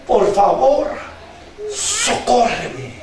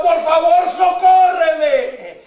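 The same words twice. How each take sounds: First: Begging. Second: Fervent plea with a long-held "socórreme"; begging loudly. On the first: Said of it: "ella le rogaba". (ruego bajo y pausado) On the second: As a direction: cry out for help, stretching the last word. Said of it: "que hincada le rogaba". (ruego clamoroso y prolongado) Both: Acted.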